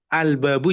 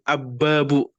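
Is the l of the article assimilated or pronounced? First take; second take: pronounced; assimilated. First: The l of the article is clearly pronounced. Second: The l merges into a doubled b sound. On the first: The speaker calls it right. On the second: The speaker calls it wrong.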